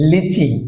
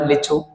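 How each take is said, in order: First: The word ends with an 'ee' vowel. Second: The word ends with an 'oo' vowel. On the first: This is the English way of saying it. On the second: This is how it is said in Bengali.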